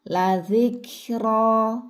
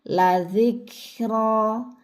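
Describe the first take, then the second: The two takes are said the same way.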